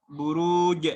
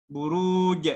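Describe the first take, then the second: The two takes are said the same way.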